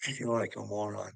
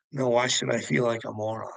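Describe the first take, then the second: First: Softly, almost under the breath, feeling foolish; quiet and deflated. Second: Defiant rebuttal. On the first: To chat viewers, he quietly admits he feels a fool. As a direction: let it sink, hushed and low. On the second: Answering his own doubt, he rejects feeling foolish defiantly. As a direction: brush the doubt off, pushing back firmly. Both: Shown as a demonstration.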